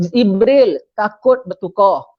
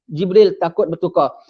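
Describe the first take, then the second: First: Jibril takut bertukar said slowly, each word weighted; slow it down so "Jibril takut bertukar" sinks in; slow, weighty emphasis. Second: Said in the usual way. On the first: Shown as a demonstration. (ditekan perlahan-lahan dengan berat)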